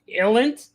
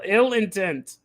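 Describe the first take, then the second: First: The name is squashed into two syllables. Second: The name is said fully in three syllables. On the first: The speaker calls it wrong. "What did I say? Illent?" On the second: The speaker calls it right. "Yeah, ill, ill intent"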